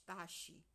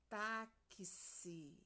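First: The x is pronounced as sh. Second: The x is pronounced as ks. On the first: The speaker calls it wrong. "Nós não pronunciamos taxi" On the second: The speaker calls it right. "ele se pronuncia como KS. Só observar o som"

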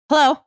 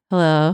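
First: It sounds busy and preoccupied. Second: It sounds disinterested and flat.

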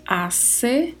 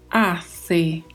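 First: The c is said with an s sound. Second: The c is said with the tongue between teeth. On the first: This is the usual Latin American pronunciation. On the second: This is the usual pronunciation in Spain. "na Espanha costuma se falar com a língua entre os dentes"

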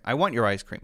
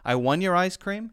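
First: The T in 'want' is held as a short stop. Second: The T in 'want' is left out completely. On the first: The speaker calls it right. "It's still there. You hear that stop" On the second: The speaker calls it wrong.

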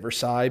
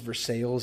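First: It is pronounced the French way. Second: It is pronounced the local Kentucky way. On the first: The speaker is not from the area. "I said it Versailles because that's how it's spelled" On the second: The speaker is from the area. "He says it's Versailles in Kentucky"

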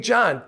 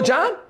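First: The pitch stays level and matter-of-fact. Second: The pitch rises up on the name. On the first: The caller sounds confident and in control. The speaker calls it right. "see how my voice just very matter of fact" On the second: The caller sounds nervous and unsure. The speaker calls it wrong. "you're gonna pitch raise"

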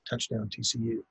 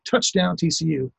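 First: It is said in a low, flat monotone. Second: It is said with lively, excited energy. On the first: It stays neutral toward both teams. The speaker calls it right. "It's a monotone, low, uninterested voice" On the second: It cheers for one team. The speaker calls it wrong. "Jeff Smith can't say"

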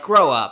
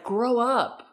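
First: It is said in a scornful, mocking tone. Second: It is said in a warm, encouraging tone. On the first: The listener is being called immature. "it sounds like a dig. ... like you're immature" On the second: It means growing like a plant. "But really, it's like grow up"

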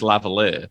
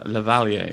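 First: The word is said with a plain English pronunciation. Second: The word is said with a French-style pronunciation. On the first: The speaker calls it right. "I think it's actually just Lavalier" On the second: The speaker calls it wrong. "I don't think that's right"

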